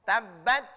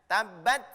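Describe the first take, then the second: No difference in how they are said.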